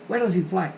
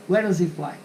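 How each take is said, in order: The two takes are said the same way.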